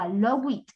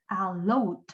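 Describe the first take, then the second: First: The ending adds an extra id syllable. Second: The ending is a single d sound. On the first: The speaker calls it wrong. "no vamos a agregarle id ... No, no" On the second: The speaker calls it right. "se pronuncia con d"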